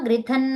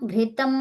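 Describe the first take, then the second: First: The word ends with an n sound. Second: The word ends with an m sound. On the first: The speaker calls it right. "ఘృతన్ అనాలి" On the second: The speaker calls it wrong. "ఘృతం ఘృతం అంటారమ్మా"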